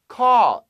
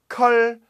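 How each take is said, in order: First: The vowel is an open 'aw' sound. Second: The vowel is a short 'uh' sound. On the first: The speaker calls it right. "A-W 발음 신경 쓰세요" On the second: The speaker calls it wrong. "컬 말고요. 컬는 닭 죽이는 거"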